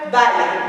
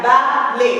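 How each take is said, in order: First: Said in the usual way. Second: "balai" split into two separate syllables. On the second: Shown as a demonstration. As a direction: break "balai" into ba, then lai. (« balai » découpé syllabe par syllabe) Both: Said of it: "La deuxième syllabe".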